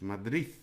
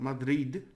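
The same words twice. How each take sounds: First: The final sound is a soft th. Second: The final sound is a hard d. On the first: The speaker calls it right. "The D in the end, I think we talked about this, is a bit like a th" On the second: The speaker calls it wrong. "It's not Madrid"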